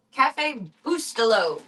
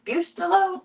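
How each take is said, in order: First: Cafe Bustelo said slow and flat, every vowel English; anglicized Cafe Bustelo. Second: Bustelo tried again as a high questioning rise; unsure Bustelo. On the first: Admitting to viewers she can't say it, anglicized. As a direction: pronounce Cafe Bustelo the plain American way. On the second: Second-guessing her coffee's name to viewers, unsure. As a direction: test Bustelo again, pitched up and doubtful. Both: Shown as a demonstration. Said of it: "I don't even know how to say it".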